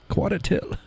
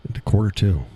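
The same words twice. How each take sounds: First: High-pitched, soft New Hampshire accent; r-less New England "Quarter till". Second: Said in the usual way. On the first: Shown as a demonstration.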